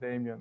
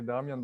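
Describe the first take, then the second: First: The name is said with English pronunciation. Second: The name is said with Croatian pronunciation. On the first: This is how foreigners usually say it. The speaker calls it wrong. "they always pronounce it Damien" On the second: This is how the owner of the name says it. The speaker calls it right. "I say Damian"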